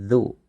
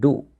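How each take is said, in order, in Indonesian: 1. Suku kata ini diawali dengan bunyi z. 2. Suku kata ini diawali dengan bunyi d. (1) "tapi zu" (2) "ini bukan du"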